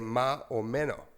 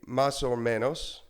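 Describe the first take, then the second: First: The S sounds are dropped, Nicaraguan style. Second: The S sounds are pronounced clearly.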